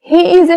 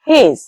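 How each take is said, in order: First: Both words are said fully and separately. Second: The two words merge into one short syllable. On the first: "হি ইজ এর সংক্ষিপ্ত form" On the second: "সংক্ষিপ্ত form হচ্ছে হেজ"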